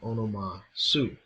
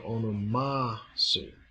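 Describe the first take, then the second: First: The last syllable of onoma is unstressed. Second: The last syllable of onoma is stressed. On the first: The speaker calls it wrong. "instead of" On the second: The speaker calls it right. "Su is an enclitic and loses its accent to the last syllable of onoma"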